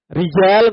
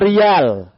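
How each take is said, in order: First: The middle consonant is a j sound. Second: The middle consonant is a y sound. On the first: Standard Arabic form. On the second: Hadrami dialect form.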